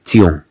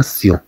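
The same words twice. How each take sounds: First: تيون read with a t; wrong reading demo. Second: سيون read with an s; correct reading demo. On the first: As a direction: say تيون with a hard t. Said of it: "لا نقرأها". (نطق خاطئ تيون بالتاء) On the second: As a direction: say سيون with a clear s. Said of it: "بل نقرأها". (نطق صحيح سيون بالسين) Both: Shown as a demonstration.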